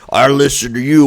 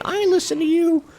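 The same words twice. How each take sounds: First: The voice is put on low-pitched. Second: The voice is put on high-pitched. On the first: "I'll make it low pitch" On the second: "their voice is high pitched"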